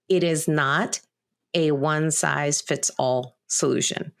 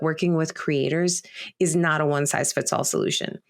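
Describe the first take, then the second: First: It is said more slowly. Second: It is said at a normal speed.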